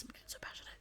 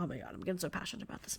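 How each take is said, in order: First: Barely audible whispered repeat; fading whisper. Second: Fast, breathy whisper aside to herself; real whisper. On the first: Host repeating her aside to herself, nearly silent whisper. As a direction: let the words almost vanish into breath. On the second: Podcast host whispering to herself after getting carried away, fast whisper. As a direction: hush it out quickly, catching yourself getting carried away. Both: Real, not acted.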